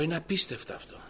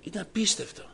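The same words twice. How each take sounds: First: Higher, stunned exclamation; marveling aloud at a miracle; astonished. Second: Higher still, overwhelmed repeat; repeating it, struck with awe; more astonished. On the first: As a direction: say it as if you can't believe it. Son astonished at father's change. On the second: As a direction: let the wonder rise even more. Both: Retold or imitated.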